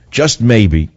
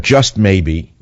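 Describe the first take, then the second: First: Said in the usual way. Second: "just maybe" drawn out slowly; slow hopeful. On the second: Shown as a demonstration.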